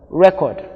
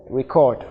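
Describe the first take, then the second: First: RECORD with stress up front, REK-ord; noun stress. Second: RECORD with stress at the end, ri-CORD; verb stress. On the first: Teacher repeating the noun form, REK-ord stressed on REK. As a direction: stress the first syllable of "record". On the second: Teacher repeating the verb form, ri-CORD stressed on CORD. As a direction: stress the second syllable of "record". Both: Shown as a demonstration. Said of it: "in the verb form".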